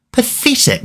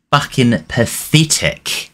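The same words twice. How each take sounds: First: "Pathetic" shot up very high in outrage; outraged. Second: Slow, contemptuous verdict, "pathetic" falling; disgusted. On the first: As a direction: cry "Pathetic" in high-pitched disbelief. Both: Real, not acted. Conceding a penalty at home.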